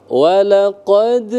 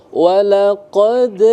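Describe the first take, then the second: Both takes have the same delivery.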